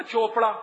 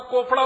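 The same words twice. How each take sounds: First: "चोपड़ा" opening on ch; usual surname pronunciation. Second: "कोपड़ा" with hard k instead of ch; deliberately mispronounced surname. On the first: Speaker reminds audience of a surname, "चोपड़ा" with ch. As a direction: say "चोपड़ा" with its normal ch start. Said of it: "एक जाति होती है ना चोपड़ा". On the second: Speaker ridicules English logic to audience, "कोपड़ा" with k. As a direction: swap the ch for k: "कोपड़ा". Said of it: "चोपड़ा को कोपड़ा बोलना चाहिए". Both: Shown as a demonstration.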